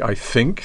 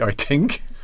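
First: The word 'think' begins with a soft 'th' sound. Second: The word 'think' begins with a hard 't'-like sound. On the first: "there are native speakers of English who don't actually say I think" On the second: "they say I think"

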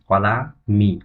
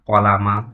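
First: The word ends in the vowel i. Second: The word ends in the vowel a. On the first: The speaker calls it right. "সঠিক উচ্চারণ হচ্ছে" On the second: The speaker calls it wrong. "তাহলে তার উচ্চারণটি কিন্তু ভুল হবে"

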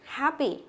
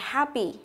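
The two takes are said the same way.

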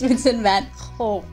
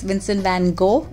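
First: The name is pronounced the Dutch way. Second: The name is pronounced the usual English way. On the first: The speaker calls it right. "that's exactly how the Dutch pronounce it" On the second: The speaker calls it wrong. "It's not like we usually think it is"

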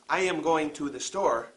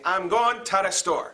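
First: 'To the' is said in full. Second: 'To the' is reduced to 'ta da'. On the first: The speaker calls it wrong. "We do not say" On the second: The speaker calls it right. "Two is pronounced ta. Da is pronounced da"

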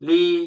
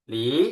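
First: The pitch stays high and level. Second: The pitch rises from middle to high. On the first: "เสียงที่หนึ่ง" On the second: "เสียงที่สอง"

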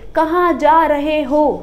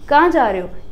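First: Every word gets the same full stress. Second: Some words are stressed and others reduced. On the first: The speaker calls it wrong. "आप ये नहीं कहोगे" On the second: The speaker calls it right. "यही rhythm चाहिए आपको"

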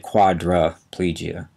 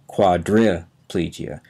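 First: The vowel after 'quadr' sounds like 'a'. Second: The vowel after 'quadr' sounds like 'ee'. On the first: This is how it is usually said. "We often pronounce it as if that I is an A. We say quadriplegia" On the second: This matches how the word is spelled. "but it's spelled quadriplegia"

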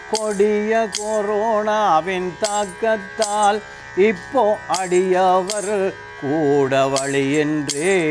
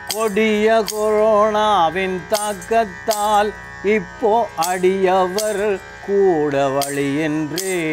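The two takes are said the same way.

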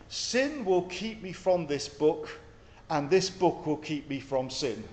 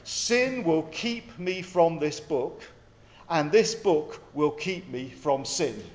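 First: It is said at normal speed. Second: It is said slowly.

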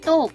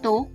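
First: The syllable is said with a falling tone. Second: The syllable is said with a rising tone. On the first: "เสียงโท" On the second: "และเสียงจัตวา"

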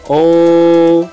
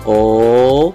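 First: The pitch stays high and level. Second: The pitch rises from low to high. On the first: "nada pertama yaitu tinggi dan datar" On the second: "nada kedua naik"

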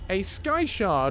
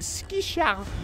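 First: The first word is said like 'sky'. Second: The first word is said like 'ski'.

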